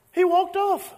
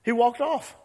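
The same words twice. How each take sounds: First: Much higher and louder, huffy; sulky kid storming off. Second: Said in the usual way. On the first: Acted. Preacher acting out Jonah storming off in a huff. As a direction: act out a child stomping away. Repeats line, then acts it out.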